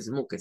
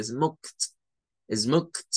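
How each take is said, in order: First: Smoked with the ed said as a separate syllable; wrong pronunciation. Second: Smoked ending in a plain t sound, one syllable; right pronunciation. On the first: Teacher shows the wrong smoke-ed to students. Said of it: "esta ed no es como decir smoked". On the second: Teacher shows the correct smokt to students. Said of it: "se dice smoked". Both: Shown as a demonstration.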